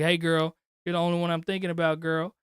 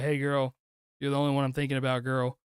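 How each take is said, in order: First: It sounds confident and swaggering. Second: It sounds bored and uninterested.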